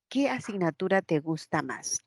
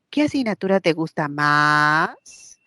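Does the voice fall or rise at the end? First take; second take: fall; rise. First: The pitch falls at the end of the question. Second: The pitch rises at the end of the question. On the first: "La inflexión es hacia abajo" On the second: "si yo lo elevo"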